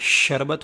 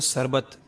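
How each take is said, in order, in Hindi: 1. शब्द चौड़ी 'sh' की सिसकारी से शुरू होता है। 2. शब्द पतली 's' की सिसकारी से शुरू होता है। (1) "शरबत होता है। तो बड़ी शीन निकालनी है" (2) "बाज़ लोग आम ज़बान के अंदर बोलते हैं"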